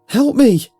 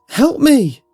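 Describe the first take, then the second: Both takes have the same delivery.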